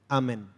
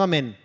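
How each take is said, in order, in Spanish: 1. El acento está en la primera sílaba. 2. El acento está en la segunda sílaba. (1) "Sácale el tilde" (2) "No amén"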